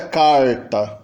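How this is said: It is said in a caipira rural accent. "E do dialeto caipira"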